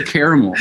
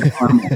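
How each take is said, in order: First: "caramel" said CARE-uh-mul; caramel in three syllables. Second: "caramel" said CAR-mul; caramel in two syllables. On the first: Singer correcting his own slip, saying "caramel" as CARE-uh-mul. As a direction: say "caramel" with an open "care" start and a middle syllable. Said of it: "I normally say caramel". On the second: Singer repeating his odd slip, saying "caramel" as CAR-mul. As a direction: say "caramel" with "car" first, dropping the middle vowel. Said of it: "it's weird that I just said". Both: Shown as a demonstration.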